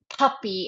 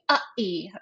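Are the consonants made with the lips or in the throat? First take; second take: lips; throat. First: The consonants are made with the lips. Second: The consonants are replaced by throat stops. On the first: The speaker calls it right. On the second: The speaker calls it wrong.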